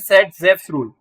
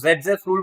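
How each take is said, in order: First: The name begins with an S sound. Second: The name begins with a Z sound. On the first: This is how the spelling reads. "अगर आप इसे पढ़ोगे तो ये क्या है" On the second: This is how people actually say it. "But बोलते हैं जेड है"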